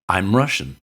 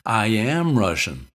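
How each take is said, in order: First: 'I am' is contracted into one syllable. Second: 'I am' is said as two full words. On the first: The speaker simply states being Russian. The speaker calls it right. "all you mean to say is simply that you're Russian" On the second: The speaker insists on being Russian. The speaker calls it wrong. "that looks like you're insisting that you're Russian"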